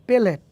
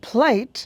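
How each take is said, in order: First: A vowel separates the first two consonants. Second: The word begins with a consonant cluster. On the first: "সে বলবে পেলেট" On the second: "আপনি বলবেন প্লেট"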